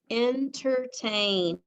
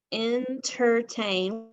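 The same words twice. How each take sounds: First: Said slowly for spelling; slow dictation. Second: Entertain repeated slowly. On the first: Teacher dictating entertain slowly to students. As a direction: stretch the word entertain out slowly. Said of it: "Next word is". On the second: Teacher repeating Entertain slowly for the class. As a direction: say Entertain again slowly and clearly. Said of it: "Part of that word says er". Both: Shown as a demonstration.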